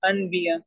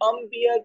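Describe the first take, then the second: First: An n sound comes before the b. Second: An m sound comes before the b. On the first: The speaker calls it wrong. "कम इल्मी की वजह से वो उसको पढ़ देगा अनबिया" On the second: The speaker calls it right. "नून की जगह पर हम मीम के आवाज क्यों निकालते हैं"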